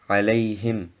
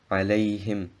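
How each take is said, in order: No difference in how they are said.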